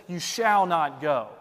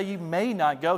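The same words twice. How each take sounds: First: "shall" leaned on, slow and firm; slow strong imperative with weight on "shall"; stress on shall. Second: Said in the usual way. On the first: Shown as a demonstration. Preacher giving God's command, weight on "shall". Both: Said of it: "A strong imperative".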